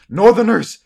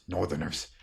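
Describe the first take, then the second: First: Loud, high cry of warning; alarm shout. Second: Lower, softer echo of disbelief; doubtful older man. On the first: Wounded boy raises the alarm. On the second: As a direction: repeat it low, disbelieving. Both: Acted.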